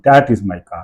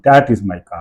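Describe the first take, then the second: First: The stress falls on the word that. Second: The stress falls on the word that.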